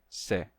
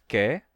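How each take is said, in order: First: The syllable begins with a hissing s sound. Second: The syllable begins with a hard k sound. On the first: This is the later pronunciation after the change. "Por isso que é K, Sé" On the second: This is the original, older pronunciation. "originalmente, era K"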